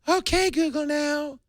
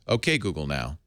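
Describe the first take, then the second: First: It is said in a disguised, put-on voice. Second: It is said in the speaker's natural voice.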